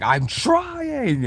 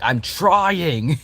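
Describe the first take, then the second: First: Much higher, drawn-out whine; high strained Vessel. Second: High, strained little plea; whiny Vessel voice. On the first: Vessel whining to Bug while failing. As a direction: stretch it into a helpless whine. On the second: Vessel pleading while failing. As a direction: squeak it out like a struggling kid. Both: Acted.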